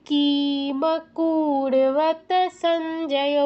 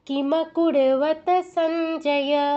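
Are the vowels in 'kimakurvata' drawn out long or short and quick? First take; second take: long; short. First: The i and u vowels are drawn out long. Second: The i and u vowels are short and quick. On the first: The speaker calls it wrong. "দীর্ঘ ইকার দীর্ঘ উকার চলে এলো, হবে না।" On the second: The speaker calls it right. "দ্রুত।"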